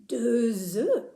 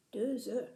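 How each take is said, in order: First: "deux œufs" with a z linking into œufs; linked liaison. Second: "Deux E" as two separate words, no z; split, unlinked. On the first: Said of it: "We say deux œufs". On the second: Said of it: "how the number two ... link". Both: Shown as a demonstration.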